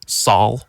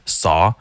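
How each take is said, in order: First: The word ends with an added L sound. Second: The word ends on a vowel without L. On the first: The speaker calls it wrong. "it sounds like saw, Saul, Saul" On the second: The speaker calls it right. "There's no L in saw"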